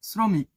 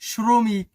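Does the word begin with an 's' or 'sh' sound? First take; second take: s; sh. First: The word begins with a plain 's' sound. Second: The word begins with a 'sh' sound. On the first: The speaker calls it right. "যখন তালব্য স্বর উচ্চারণ দন্তেশ্বর মতো শ্রমিক" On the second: The speaker calls it wrong. "খুবই খারাপ শোনায়"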